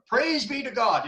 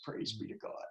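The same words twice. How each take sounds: First: Fervent praise. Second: Whispered, much softer; hushed murmured mantra. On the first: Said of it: "she would always get up and say". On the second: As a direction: breathe it like a private prayer. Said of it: "She had this mantra". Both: Retold or imitated.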